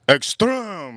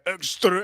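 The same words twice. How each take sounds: First: The word is said with strong force. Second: The word is said with little force. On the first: The speaker calls it right. "You got to do it with some oomph" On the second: The speaker calls it wrong. "I gotta practice that"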